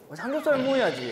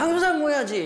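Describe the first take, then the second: First: It is said in a lowered, softened tone. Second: It is said in a strong, forceful tone.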